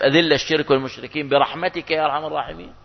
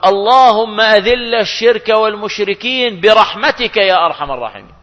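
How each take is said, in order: First: Softer, questioning repeat with a rising end; doubtful question. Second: Imam's prayer, imitated. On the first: Shown as a demonstration. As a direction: ask it back as if doubting it fits. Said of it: "طب بتناسب". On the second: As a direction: intone it like an imam leading the prayer. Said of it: "يقول".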